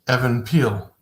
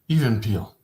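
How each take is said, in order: First: The first name sounds like the name Evan. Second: The first name sounds like the word even.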